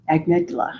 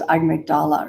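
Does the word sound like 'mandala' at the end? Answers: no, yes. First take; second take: no; yes. First: The word does not sound like mandala. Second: The word sounds like mandala at the end. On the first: The speaker calls it right. "I can say it" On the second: The speaker calls it wrong. "I always thought it was amygdala or something, you know, like a mandala"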